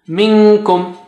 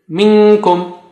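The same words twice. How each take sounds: Both takes have the same delivery.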